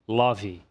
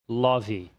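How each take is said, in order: No difference in how they are said.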